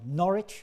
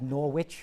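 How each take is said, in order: First: It is said the English way. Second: It is said the American, Connecticut way.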